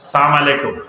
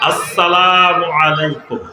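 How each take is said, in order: First: The greeting is clipped, without the opening syllables. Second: The greeting is said in full, with all syllables. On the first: It wishes death upon the listener. The speaker calls it wrong. "একেবারে সংক্ষেপে সালাম আলাইকুম।" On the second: It wishes peace upon the listener. The speaker calls it right. "আসসালামু আলাইকুম আপনার উপরে শান্তি বর্ষিত হোক।"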